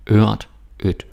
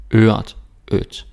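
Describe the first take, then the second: No difference in how they are said.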